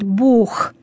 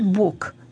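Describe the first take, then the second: First: The word ends in a breathy kh sound. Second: The word ends in a hard k sound. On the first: The speaker calls it right. "именно «х». Вот как я сейчас произнесла, так и правильно" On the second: The speaker calls it wrong. "«г» должно переходить в «к»"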